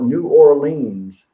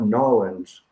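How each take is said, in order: First: It is said in full, Western style. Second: It is shortened, local Louisiana style.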